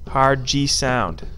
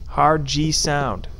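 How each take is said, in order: Both takes have the same delivery.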